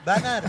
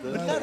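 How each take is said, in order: First: The first vowel sounds like an open 'a'. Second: The first vowel sounds like a weak 'e'. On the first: The speaker calls it wrong. "Masa saya ngomong benarnya banar, banar gitu" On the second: The speaker calls it right. "Harusnya kan benar ya"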